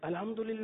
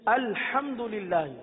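First: The opening glottal stop is weak and soft. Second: The opening glottal stop is strong and firm. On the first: The speaker calls it wrong. "الحمدللہ ہی نہیں" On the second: The speaker calls it right. "حمزہ شدت کے ساتھ ادا ہوتا ہے"

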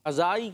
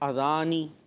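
First: The word has no n sound before the end. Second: The word has an n sound before the end. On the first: The speaker calls it wrong. "اذائی کیوں" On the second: The speaker calls it right. "اذان تو اذانی"

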